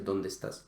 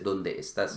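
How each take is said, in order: First: The two e vowels merge into one. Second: Both e vowels are pronounced separately. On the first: The speaker calls it right. "Se dice ¿dónde estás?" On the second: The speaker calls it wrong. "no se dice ¿dónde estás?"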